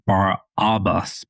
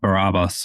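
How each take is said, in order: First: The name is said with extra emphasis. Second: The name is said plainly, without extra emphasis. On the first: "put a little more emphasis on it" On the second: "you pronounced it quite well"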